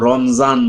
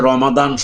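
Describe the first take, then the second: First: The middle consonant is a z sound. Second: The middle consonant is a d sound. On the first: The speaker calls it wrong. "অনেক বড় শিক্ষিত লোকরাও কিন্তু রমজান বলে" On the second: The speaker calls it right. "তুমি যে রমাদান শব্দটা উচ্চারণ করেছো"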